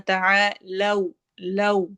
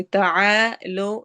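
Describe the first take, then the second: First: تعالوا with rounded lips on لو; right way. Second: تعالوا with a flat unrounded ending; wrong تعالوا, ending not rounded. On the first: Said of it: "ہونٹ ہمارے گول ہوں گے". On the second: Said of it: "نہیں پڑھنا". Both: Shown as a demonstration.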